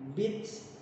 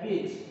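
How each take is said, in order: First: The final consonant ends in a hissing air release. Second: The final consonant sounds like a 'ch'. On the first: The speaker calls it right. "Ada s-nya di belakang" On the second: The speaker calls it wrong. "Lalu ini juga bukan dibaca beach"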